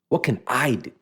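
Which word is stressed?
do. The stress is not on the word I.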